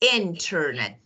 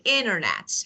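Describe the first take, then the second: First: The T after the N is pronounced. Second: The T after the N is dropped. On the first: This is the standard, careful form. "standard pronunciation ... definitely correct" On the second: This is casual, fast conversational speech. "conversational. So we say"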